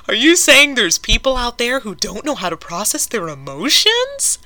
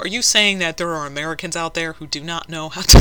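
First: Higher, louder, mock-shocked question; mock disbelief. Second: Said in the usual way. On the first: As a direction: ask it in fake astonishment. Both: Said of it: "I can't even finish that with a straight face".

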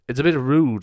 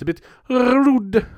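First: Said in the usual way. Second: "rude" high, loud and drawn out; exaggerated RUDE. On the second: Scolding silent listeners in jest, "rude" shrieked high and long.

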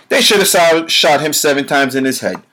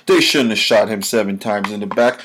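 First: "should" hit high and loud, falling away to "head"; raised pitch on "should have", driven hard; heated rebuttal. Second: Said in the usual way. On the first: Real, not acted. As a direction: punch "should" in angry correction. Heated rebuttal of quoted argument.

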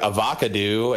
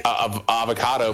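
First: "Avocado" said as ah-vah-kuh-DOO; avocado ending in "doo". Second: Said in the usual way. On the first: Shown as a demonstration. Podcast guest riffing a pun for the group, "Avocado" ending in "doo". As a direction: twist the last syllable of "Avocado" into "doo". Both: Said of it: "more like".

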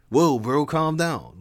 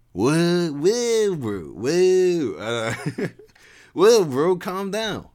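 First: Higher, easygoing bro voice; calm him down, dude style; chiding bro. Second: Much higher, laid-back surfer bro voice; cool him down like a chill surfer dude; chiding surfer dude. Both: Acted. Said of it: "Levi chided".

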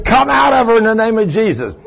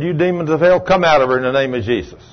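First: Raised, higher, out stressed with a falling end; preacher screaming at demons while pinning her; screaming command. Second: Said in the usual way. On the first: Retold or imitated. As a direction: yell it over the struggle. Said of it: "I'm screaming".

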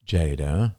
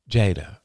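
First: Lower, graver call of the name. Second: Said in the usual way. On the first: A narrator's reading. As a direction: drop the voice as you repeat it. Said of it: "repeated Marie in a lower voice".

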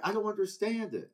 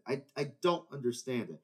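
First: "I don't understand it" higher, pitched up in frustration; "don't" hit with disbelief; exasperated. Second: Said in the usual way. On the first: Real, not acted.

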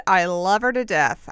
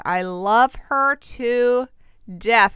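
First: Said in the usual way. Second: Slow, stretched-out I love her to, then a louder death; drawn-out gush. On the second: Real, not acted. Host gushing about Jen Shah, slow and stretched out. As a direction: savor every word like a swoon.

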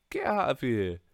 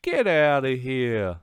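First: Said in the usual way. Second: Drawn-out dismissal. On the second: Shown as a demonstration. Brushing off whiny fans with a loud, slow dismissal. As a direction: Get out of here louder and slowed, leaning on get.

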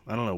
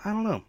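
First: Said in the usual way. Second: High pitched know. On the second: Real, not acted. Joking doubt about acting plans.

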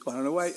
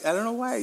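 First: Said in the usual way. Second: Much higher, squeaked repeat of why; squeaky repeat. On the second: Real, not acted. Puzzled over the police job, he squeaks it up high. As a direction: jump way up into a comic squeak.

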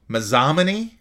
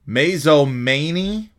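First: Mazomanie said as ma-ZAH-ma-nee, questioning; second-guessed pronunciation. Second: Mazomanie sounded out slowly as MAY-zo-MAY-nee, questioning; unsure pronunciation. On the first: Podcaster retries a town name, Mazomanie as ma-ZAH-ma-nee. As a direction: stress the ZAH in Mazomanie, rising at the end. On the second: Podcaster puzzles over a town name, Mazomanie tried as MAY-zo-MAY-nee. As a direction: stretch Mazomanie with long AY vowels, rising at the end. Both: Real, not acted. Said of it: "Is that how you, Mazomanie?".

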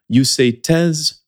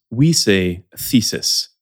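First: Thèse said slowly the French way with a t; French pronunciation. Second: Thesis said slowly with English th; English pronunciation. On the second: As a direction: thesis with the tongue between the teeth, slowly. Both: Shown as a demonstration. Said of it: "pronunciation parenthèse".

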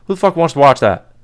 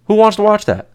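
First: Said in the usual way. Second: High, mocking whine of disbelief; squeaky put-on voice asking who'd watch that; mock incredulous. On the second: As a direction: pitch it way up like a whiny disbelieving fan. Repeats the complaint differently.

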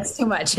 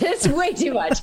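First: Said in the usual way. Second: Laughing it out. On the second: Real, not acted. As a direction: laugh through the words. Repeats phrase, then laughs.

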